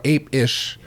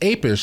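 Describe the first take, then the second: First: The word is said at a normal, unhurried pace. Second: The word is said quickly, run together.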